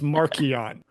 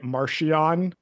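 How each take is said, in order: First: The middle consonant is a 'k' sound. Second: The middle consonant is a 'ch' sound. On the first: The speaker calls it right. "It's Markion" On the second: The speaker calls it wrong. "You're pronouncing it Marchion?"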